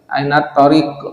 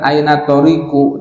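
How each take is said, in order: First: The last word ends on a bare q sound. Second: The last word ends with a short u vowel. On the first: The speaker calls it right. "bisukunil qaf, disukunkan qafnya" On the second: The speaker calls it wrong.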